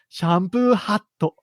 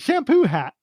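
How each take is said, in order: First: It is said with Japanese sounds, ending in 'to'. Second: It is said with English sounds, ending in 't'. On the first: "that word is shampoo hatto" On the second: "to pronounce it in a more English way"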